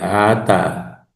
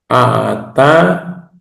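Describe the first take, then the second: First: The two syllables flow together without a stop. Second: The airflow stops abruptly between the two syllables. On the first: "cuando no hay" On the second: "cuando hay saltillo"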